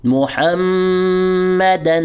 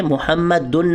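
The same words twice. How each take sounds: First: محمدا ending in -a, with a held nasal م; correct ending. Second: محمدن ending in -un; wrong ending. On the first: Teacher reciting the correct ending. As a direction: end محمدا on a long a. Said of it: "بلکہ دو زبر ہیں". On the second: Teacher showing the wrong ending. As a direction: say محمدن with two dammas, -un. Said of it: "محمدن نہیں ہے". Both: Shown as a demonstration.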